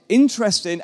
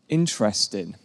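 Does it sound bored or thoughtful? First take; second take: thoughtful; bored. First: It sounds unsure and thoughtful. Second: It sounds bored and uninterested.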